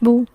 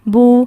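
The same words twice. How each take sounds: First: The vowel is kept short. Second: The vowel is drawn out long. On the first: "अगर हरफ मद्दा नहीं है तो उनको बिल्कुल भी नहीं खींचा जाएगा" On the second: "लंबा हमने किसको करना है? जिस वाव साकिन से पहले पेश होगी"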